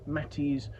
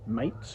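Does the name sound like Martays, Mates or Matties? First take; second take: Matties; Mates. First: The name is said with two syllables, like 'Matties'. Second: The name is said with one syllable, like 'Mates'. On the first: The speaker calls it right. "the name is pronounced Matty's" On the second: The speaker calls it wrong. "rather than Mates, which it could be read as"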